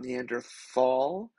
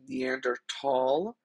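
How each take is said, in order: First: The last syllable starts with a th sound. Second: The last syllable starts with a plain t sound. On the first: It follows the English spelling. "and not Neanderthal" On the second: It follows the original German pronunciation. "I'm saying Neanderthal"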